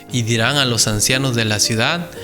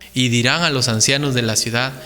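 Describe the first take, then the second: Both takes have the same delivery.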